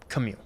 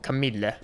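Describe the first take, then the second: First: The final vowel is left silent. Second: Every letter, including the final vowel, is sounded.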